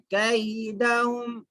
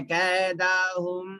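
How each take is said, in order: First: कैदहुम with a short, clear kai glide; quick, soft diphthong. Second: कैदहुम with the ai flattened to a long e; majhool vowel, faulty. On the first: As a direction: say कैदहुम with an open a-i, not a long e. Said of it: "जल्दी पढ़ना है". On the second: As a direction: demonstrate the mistake, कैदहुम as "kay-dahum". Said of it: "मजहूल आवाज से नहीं पढ़ना है". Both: Shown as a demonstration.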